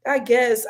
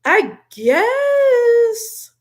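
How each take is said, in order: First: Said in the usual way. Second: Doubtful concession. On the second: Real, not acted. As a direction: GUESS drawn out high and loud. Sceptical reply, then repeated plainly.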